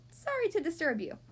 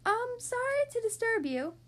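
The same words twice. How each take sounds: First: Said in the usual way. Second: High, tentative small voice; little high-pitched apology. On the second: A narrator's reading. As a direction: politely call out from far above. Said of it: "a small voice called out".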